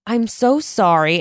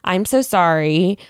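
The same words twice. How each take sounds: First: It is said with lively, expressive intonation. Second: It is said in a flat, monotone voice. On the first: The speaker calls it wrong. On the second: The speaker calls it right.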